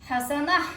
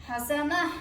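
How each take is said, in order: The two takes are said the same way.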